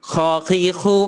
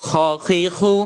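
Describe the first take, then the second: No difference in how they are said.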